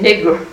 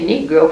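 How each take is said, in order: First: The word ends in an 'uh' sound. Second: The word ends in an 'oh' sound. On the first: This is how the locals say it. "we say Negro. Negro, and I like N-I-G-R-A is what we say" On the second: This is not how the locals say it. "We don't say Negro"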